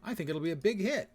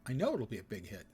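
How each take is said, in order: First: Said in the usual way. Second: Know stressed as the key word. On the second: Shown as a demonstration. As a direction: lean on know, rest lower.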